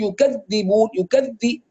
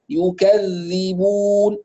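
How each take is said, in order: First: يكذبون quicker, dh bitten hard, almost d; pressed dhal. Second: يكذبون slow, yu-kadh-dhi-bun with flowing dh; soft doubled dhal. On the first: Teacher shows what not to say, pressed dhal. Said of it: "لا نضغط". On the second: Teacher models for students, soft doubled dhal. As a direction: let the dh flow, stretch final u. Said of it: "تشديد الذال المكسورة ورخاوتها". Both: Shown as a demonstration.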